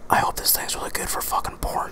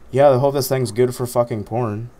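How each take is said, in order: First: It is whispered. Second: It is spoken aloud in a normal voice.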